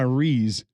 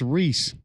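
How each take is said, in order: First: The name ends with a buzzing z sound. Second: The name ends with a hissing s sound. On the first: The speaker calls it wrong. "there's no Z in it" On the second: The speaker calls it right. "R E E S"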